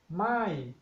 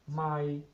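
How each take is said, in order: First: The pitch starts high and falls. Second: The pitch stays level throughout. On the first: It means no. "the falling tone my" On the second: It means a mile. "if we apply the flat tone in the word my"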